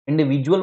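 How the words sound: It is said with a j sound, British.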